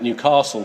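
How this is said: The vowel in 'castle' sounds like 'arse'. The speaker calls it wrong. "would put an arse rather than an ass in it"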